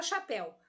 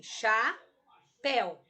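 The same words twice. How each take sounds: First: Said in the usual way. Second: "chapéu" very slow, broken into cha, then péu; "chapéu" pulled apart syllable by syllable; split into syllables. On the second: Shown as a demonstration. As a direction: pause between the two syllables of "chapéu". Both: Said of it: "vou separar a sílaba da palavra chapéu".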